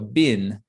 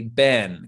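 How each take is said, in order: First: The vowel is short, like in bin. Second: The vowel is short, like in ben. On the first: This is the most neutral pronunciation. "maybe the most neutral way to say it, is like a B I N, so a bin" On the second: This is the speaker's own usual pronunciation. "I personally would often say ben, kind of like B E N"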